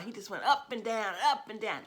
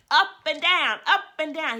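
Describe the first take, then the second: First: Said in the usual way. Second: Mother imitating her toddler's loud, high yell; son's yell. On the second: Mother imitating her son yelling on her lap, loud and high. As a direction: belt it out high like an excited little boy bouncing. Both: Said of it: "and he'd yell".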